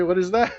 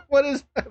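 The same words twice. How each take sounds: First: Said in the usual way. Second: Higher, odd put-on voice, laughing; mock squeaky repeat. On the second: Streamer mocking the strange game title, in a higher put-on voice. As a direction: squeak the question back at yourself.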